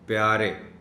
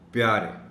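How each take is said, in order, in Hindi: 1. पहले व्यंजन के बाद 'a' स्वर आता है। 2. पहले व्यंजन के बाद 'i' स्वर आता है। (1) "आम तौर पर इसको बोला जाता है प्यारे, यानी पे के ऊपर ज़बर की आवाज़" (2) "सही है कि पे के नीचे ज़ेर है"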